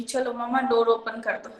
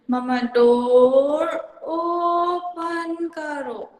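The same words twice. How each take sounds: First: Said in the usual way. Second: mamma डोर ओपन करो very slow, with ओपन drawn out, heavy and falling; abnormal intonation. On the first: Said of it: "जैसे normal चीज़ होती है". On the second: Shown as a demonstration. Teacher imitates a child with apraxia, slow with stress misplaced on ओपन. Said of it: "ये एक normal intonation नहीं है".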